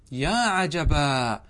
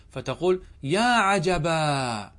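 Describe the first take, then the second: First: يا عجبا very slow, each syllable drawn out; slow model repeat of يا عجبا for students; slower repeat. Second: Slow, drawn-out يا عجبا; teacher slowly sounding out يا عجبا; slow model exclamation. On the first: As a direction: draw out يا عجبا even longer. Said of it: "teacher repeats exclamation". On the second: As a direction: stretch out يا عجبا like a model phrase. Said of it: "teacher models exclamation". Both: Shown as a demonstration.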